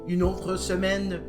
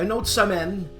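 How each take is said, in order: First: It is spoken in a southern France French accent. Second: It is spoken in a Québécois French accent. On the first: "That's my French accent from France, from the region of Marseille" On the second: "the Québécois version of what I just said"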